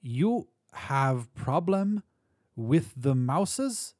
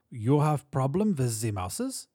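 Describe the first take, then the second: First: Put-on very slow, word by word, in a German or Polish accent; drawn-out accented question, pitched up on the opening words; slowly repeated. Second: Put-on lilting Central European accent, question rising at the end; halting English in a German-Polish accent. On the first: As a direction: spell it out slowly in a high accented voice. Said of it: "The man repeated slowly". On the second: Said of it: "the accent German or Polish". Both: A narrator's reading.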